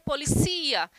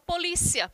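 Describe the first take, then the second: First: The stress falls where Spanish puts it. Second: The stress falls where Portuguese puts it. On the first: "Já em espanhol, seria policia. Então, a sílaba tônica seria uma outra" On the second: "em português, a gente fala polícia"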